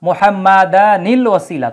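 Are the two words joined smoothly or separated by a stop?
joined. Read in one breath with an added 'nil' link. "যদি একটানে পড়ে যাই"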